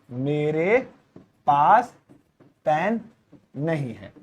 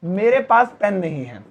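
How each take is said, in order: First: "मेरे", "पास", "pen", "नहीं है" said apart, dropping softer at the end; slow spaced read for notes; spaced dictation. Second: Said in the usual way. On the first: Shown as a demonstration. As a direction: dictate word by word. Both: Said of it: "दूसरा है".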